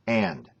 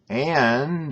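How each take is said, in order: First: The word is said short and crisp. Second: The word is stretched out and elongated. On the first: The speaker calls it right. "Then you do this" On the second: The speaker calls it wrong. "Not and"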